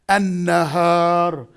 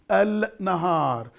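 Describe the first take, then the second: First: The article's L merges into a doubled N. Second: The article's L is clearly pronounced before N. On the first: The speaker calls it right. "Pronunciation is An Nahar" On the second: The speaker calls it wrong. "the pronunciation is not supposed to be this"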